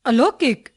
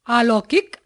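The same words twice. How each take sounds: First: अलौकिक with short opening a; correct short first vowel. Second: अलौकिक with long opening aa; wrong long first vowel. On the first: Teacher giving the correction, अलौकिक with short a. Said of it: "उनके शुद्ध रूप". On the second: Teacher showing a common error, अलौकिक with long aa. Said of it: "कुछ सामान्य अशुद्धियां". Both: Shown as a demonstration.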